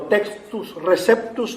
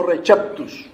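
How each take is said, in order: First: Said in the usual way. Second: "receptus" in an alternative Latin reading; alternative Latin pronunciation. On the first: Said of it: "depende cómo lo pronuncien". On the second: Shown as a demonstration. Lecturer showing that it depends who pronounces it, alternative pronunciation of "receptus". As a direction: offer the other way of pronouncing "receptus". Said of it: "depende cómo lo pronuncien y quién lo pronuncia".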